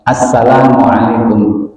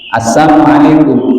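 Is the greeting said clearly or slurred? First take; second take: clear; slurred. First: The greeting is said clearly, every syllable distinct. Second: The greeting is slurred, with syllables run together. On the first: It is a proper wish of peace. The speaker calls it right. "cetok, jelas" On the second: It sounds like wishing deafness on the listeners. The speaker calls it wrong. "budek kalian, ya, tuli kalian"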